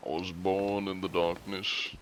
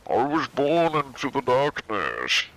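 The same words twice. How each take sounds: First: Lightly voiced masked villain; understated villain impression; Bane. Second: High, slow voice as if into a coffee cup; theatrical masked-villain impression; Bane. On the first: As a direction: toss off the villain line at a usual pitch. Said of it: "many Bane lines". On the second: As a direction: intone it slowly, pitched up, into a cupped hand. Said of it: "Bane is talking into a coffee cup".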